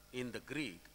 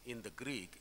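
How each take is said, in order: Both takes have the same delivery.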